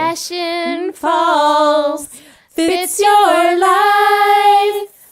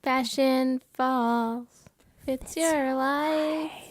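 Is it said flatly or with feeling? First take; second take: with feeling; flatly. First: It is said with more feeling. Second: It is said fairly flatly.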